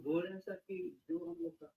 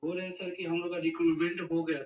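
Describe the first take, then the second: First: Very soft, barely audible caller; too quiet. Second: Raised from barely audible to clearly audible; speaking up. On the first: Caller starting his question to the panel, too quiet. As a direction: speak far too softly to be heard. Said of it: "Can you be loud". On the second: Caller restarting his question after being asked, speaking up. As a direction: speak up so the host can hear. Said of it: "जोर से बोलो". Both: Real, not acted.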